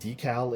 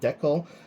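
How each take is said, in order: First: The word is said with an American pronunciation. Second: The word is said with a Canadian pronunciation. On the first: "American viewers, you guys pronounce it Decal in the U S" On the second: "I'm Canadian. I pronounce it Decal"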